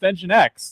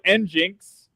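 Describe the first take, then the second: First: It sounds like 'engine X'. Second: It sounds like 'N-jinx'. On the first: The speaker calls it right. "Engine X is pronounced Engine X" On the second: The speaker calls it wrong. "we don't call it N-Jinx"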